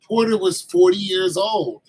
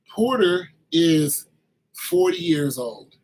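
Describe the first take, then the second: First: Said in the usual way. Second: Drawn out, each word weighted, "Porter is" stretched; deliberate, slowed restatement for comic emphasis; slow emphatic repeat. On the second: Shown as a demonstration. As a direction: spell out "forty years old" slowly, like it's unbelievable. Repeats fact slowly for emphasis.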